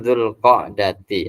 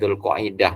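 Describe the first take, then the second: First: It is said as qa'-da-ti, ending in dati. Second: It is said as qa-i-dah, ending in dah. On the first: This is the original Arabic form. The speaker calls it right. "Yang betul tu Dzul Qa'dati" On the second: This is the habitual local form. The speaker calls it wrong. "kita dah terbiasa Dzul Qa'idah"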